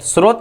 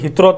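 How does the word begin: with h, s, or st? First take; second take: s; h. First: It begins with s followed directly by r. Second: It begins with an h sound instead of s.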